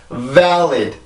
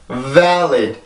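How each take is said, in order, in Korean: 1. 첫 번째 모음은 입을 크게 벌리고 길게 내요. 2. 첫 번째 모음은 입을 크게 벌리고 길게 내요.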